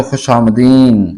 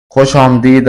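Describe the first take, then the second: First: खुश आमदीन ending on n instead of d; colloquial pronunciation. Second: खुश आमदीद with final d sounded; original full pronunciation. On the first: Teacher showing the spoken welcome, colloquial pronunciation. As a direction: finish खुश आमदीन on a long -een. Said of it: "असल है तो खुश आमदीन". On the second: Teacher showing the original welcome, full pronunciation. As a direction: end खुश आमदीद on a clear d. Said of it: "असल है". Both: Shown as a demonstration.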